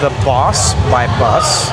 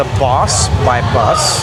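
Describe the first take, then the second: First: The name is said like 'Boss by Bus'. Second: The name is said like 'Boss by Bus'.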